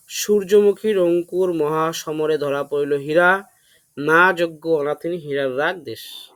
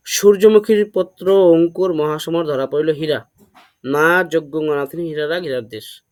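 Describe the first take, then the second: First: "সূর্যমুখীর Ankur" spoken slowly, word by word; slow deliberate recitation. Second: Said in the usual way. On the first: Shown as a demonstration. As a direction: spell out each word of the memory line slowly. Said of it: "এটা করেছি হচ্ছে". (ধীরে ধীরে স্পষ্ট করে আবৃত্তি) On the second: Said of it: "তো আমি এটা কি করেছি?".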